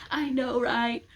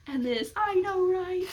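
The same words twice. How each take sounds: First: Higher, louder eager fangirl agreement; excited agreement. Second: Very high, slowed, teary fangirl squeal; crying squeal. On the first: Two fans freaking out together, excited. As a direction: gush along with a fellow fan. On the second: Fan overwhelmed with a fellow reader, teary squealing. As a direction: squeal it like you're about to cry. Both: Pretend. Imagined fan screaming together.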